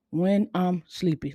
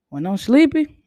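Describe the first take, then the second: First: Sleepy monotone. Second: Higher and louder, full of energy; energetic. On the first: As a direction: drag it out like you're half asleep. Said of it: "when I'm sleepy, it's, it's crazy". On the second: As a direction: spice it up, perky and bright. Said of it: "I'm able to spice it up a little bit when I have some energy". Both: Shown as a demonstration.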